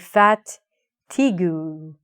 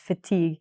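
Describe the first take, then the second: First: The final u is pronounced as a vowel. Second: The final u is silent. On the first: The speaker calls it wrong. "When I look at it, I say fatigue" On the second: The speaker calls it right. "but it's fatigue"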